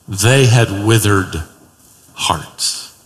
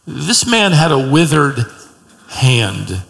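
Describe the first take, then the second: First: "hearts" falls low and fades to a whisper; slow down and let "withered" hang, then breathe out "hearts"; dropped to a hush. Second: Said in the usual way. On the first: Shown as a demonstration. Preacher contrasts the Pharisees' hearts with a hushed whisper.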